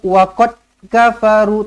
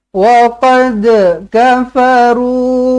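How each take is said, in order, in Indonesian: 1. d pada waqad tidak ada lantunan. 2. d pada waqad berakhir dengan lantunan. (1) "Tak nak lagi baca waqad kafaru" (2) "kol-kolah tu memang kena lantun"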